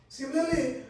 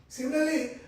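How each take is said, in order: No difference in how they are said.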